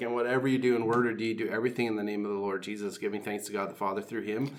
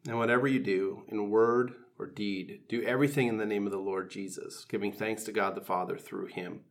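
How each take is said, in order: First: The verse is said quickly and fluently. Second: The verse is said slowly and deliberately.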